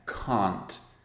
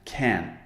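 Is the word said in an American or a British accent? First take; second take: British; American. First: It is said in a British accent. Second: It is said in an American accent. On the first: "My accent is British English... can't is the negative" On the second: "I'll try and imitate an American accent... can for the negative"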